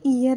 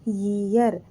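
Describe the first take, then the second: First: The word begins with a plain vowel sound. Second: The word begins with a Y sound. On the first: The speaker calls it wrong. "ये ईयर नहीं है" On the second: The speaker calls it right. "अब लगना चाहिए ना वाई के साथ ए"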